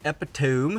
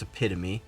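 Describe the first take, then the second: First: The word seems said as three syllables. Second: The word seems said as four syllables. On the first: The speaker calls it wrong. "It's actually not how you say it" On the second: The speaker calls it right. "it's Epitome"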